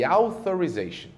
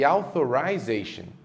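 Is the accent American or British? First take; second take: American; British. First: It is said with an American accent. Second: It is said with a British accent. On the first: "Nos Estados Unidos, palavras que terminam dessa forma são pronunciadas assim" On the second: "Já no Reino Unido, essas mesmas palavras teriam a seguinte pronúncia"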